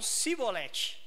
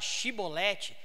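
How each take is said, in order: First: The word begins with an 's' sound. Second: The word begins with an 'sh' sound. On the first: The speaker calls it wrong. "Eles usam o som de S. Então, para falar a mesma palavra, eles falavam cibolete" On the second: The speaker calls it right. "A palavra chibolete significa espiga de milho"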